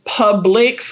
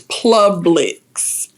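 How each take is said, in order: First: It is said without an extra L sound. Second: It is said with an extra L sound.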